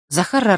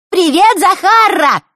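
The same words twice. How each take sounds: First: Said in the usual way. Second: High squeaky mocking girl voice. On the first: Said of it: "песклявым голосом". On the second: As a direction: squeak it to mock her. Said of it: "начал он песклявым голосом". (писклявый дразнящий голос)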